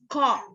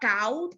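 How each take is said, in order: First: The vowel sounds like 'aw' in autumn. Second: The vowel sounds like 'ow' in out. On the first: The speaker calls it right. "it's caught" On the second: The speaker calls it wrong. "It's not caught"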